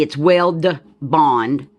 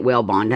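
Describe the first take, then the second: First: "Weld Bond" said slowly with a clear D; slow, deliberate "Weld Bond" with the D; careful Weld Bond. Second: "Wellbond" run together with the D dropped; Southern-accented "Wellbond", no D. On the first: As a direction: spell it out: Weld, then Bond, D sounded. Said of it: "I'm probably not pronouncing the D". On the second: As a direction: say "Wellbond" the way it usually comes out, D gone. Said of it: "I know when I say it". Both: Shown as a demonstration.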